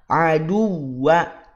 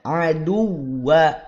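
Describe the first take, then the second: The two takes are said the same way.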